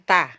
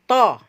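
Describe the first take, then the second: First: The t is light, with a bright a vowel. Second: The t is heavy, with a dark o-like vowel. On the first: The speaker calls it wrong. "bukan ta" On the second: The speaker calls it right. "huruf tebal itu dia tidak akan berubah"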